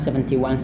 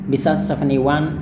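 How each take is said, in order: First: The T in seventy is clearly pronounced. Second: The T in seventy is dropped. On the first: "tapi juga bo boleh dilafalkan" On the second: "T di seventy itu boleh nggak dilafalkan"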